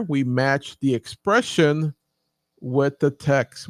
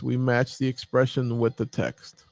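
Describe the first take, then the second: First: Slow, deliberate, every word given weight; teacher drawing out the key point; slow emphasis. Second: Said in the usual way. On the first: Shown as a demonstration. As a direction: spell out the rule slowly for the class.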